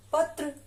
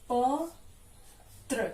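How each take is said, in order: First: Said in the usual way. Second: पत्र drawn out slowly as प and त्र; syllable by syllable. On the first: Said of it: "क्या बनेगा?". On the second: Shown as a demonstration. Teacher spelling out पत्र slowly, syllable by syllable. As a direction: sound out प-त्र very slowly for the class. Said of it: "त्र से बने हुए दो शब्द देखिए".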